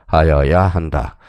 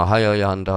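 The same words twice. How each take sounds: First: 하여야 한다 slow and loud, drawn out; emphatic answer. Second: Said in the usual way. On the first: Shown as a demonstration. Teacher gives students the correct option, 하여야 한다 slow and emphatic. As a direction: hammer home 하여야 한다 word by word, slowly.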